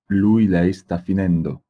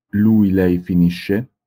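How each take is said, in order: First: Said in the usual way. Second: Slow and loud, each word set apart; slow classroom model of Lui, lei finisce; slow model reading. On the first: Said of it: "teacher models the progressive form". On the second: Shown as a demonstration. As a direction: read it slowly for the class to repeat. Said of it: "teacher models the present form".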